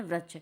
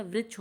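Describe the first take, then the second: First: वृक्ष mispronounced as vrachh; common misreading. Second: Said in the usual way. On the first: Shown as a demonstration. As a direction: read the ri in वृक्ष as ra. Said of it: "लेकिन पढ़ते क्या हैं". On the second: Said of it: "शुद्ध उच्चारण इसका".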